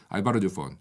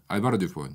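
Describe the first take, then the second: The two takes are said the same way.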